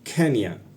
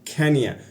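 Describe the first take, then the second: First: The two words run together into one word. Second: The same.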